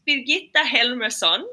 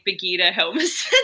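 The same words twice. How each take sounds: First: It is said with a Swedish pronunciation. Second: It is said with an Australian pronunciation.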